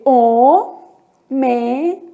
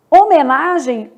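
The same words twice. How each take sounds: First: "homenagem" spaced out, o, me, na, gem; "homenagem" in four separate syllables, no h sound. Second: Said in the usual way. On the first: Shown as a demonstration. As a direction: sound out "homenagem" with pauses, silent H. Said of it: "a letra H nunca é pronunciada". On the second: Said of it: "o H não é pronunciado".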